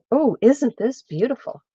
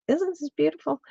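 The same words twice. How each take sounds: First: Said in the usual way. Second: Higher, softer and delighted; delighted softer repeat; delighted higher echo. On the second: Real, not acted. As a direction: coo over the yarn up high. Admiring the yarn again.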